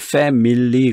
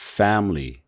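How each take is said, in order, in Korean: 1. "family"의 가운데 모음은 완전한 모음으로 발음해요. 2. "family"의 가운데 모음은 빠져서 두 음절이 돼요. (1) "한국 사람들은 이걸 family 그런단 말이에요" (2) "중간에 있는 이 I 소리가 없어진 소리가 돼버려요"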